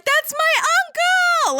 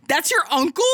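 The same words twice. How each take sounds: First: Very high, drawn-out fangirl cry; excited squeal. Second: Higher-pitched, baffled disbelief; incredulous question. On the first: Ruby instantly spots her uncle and gets so excited, high excited squeal. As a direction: stretch it out in a gleeful high-pitched shout. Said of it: "she gets so excited". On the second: Weiss reacts to Ruby's excitement over her uncle, incredulous higher question. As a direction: question it in mock astonishment. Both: Acted.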